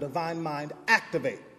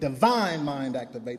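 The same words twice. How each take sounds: First: The word activate is stressed. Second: The word divine is stressed.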